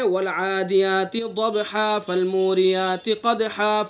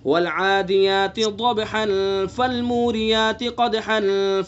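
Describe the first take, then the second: First: The words run on and end in a long -a. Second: The words run on and end in -an. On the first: The speaker calls it wrong. "ये गलत हम कर रहे हैं" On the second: The speaker calls it right. "उस हरकत को जाहिर करके पढ़ेंगे"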